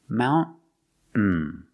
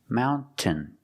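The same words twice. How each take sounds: First: The T is stopped, then goes into the N. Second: The T is clearly released before the ending. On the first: "make a stop T" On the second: "making the T sound"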